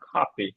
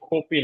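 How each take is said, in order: First: The first k sound has a puff of air. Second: The first k sound has no puff of air. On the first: The speaker calls it right. "খাপি ঠিক আছে" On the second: The speaker calls it wrong. "কপি না"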